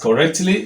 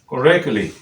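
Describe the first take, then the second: First: The t before -ly is pronounced. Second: The t before -ly is dropped. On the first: The speaker calls it wrong. "If you were to pronounce it as correctly, you will have problem" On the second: The speaker calls it right. "take away the sound that is represented by that T"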